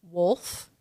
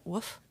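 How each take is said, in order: First: Said in the usual way. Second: WOLF said as "woof", no L; dropped L. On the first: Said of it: "how they pronounce things". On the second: Retold or imitated. Host imitates the boss's pronunciation, wolf as woof. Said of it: "he just likes to woof".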